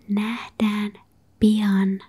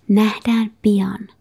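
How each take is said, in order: First: The phrase is said slowly. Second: The phrase is said at normal speed.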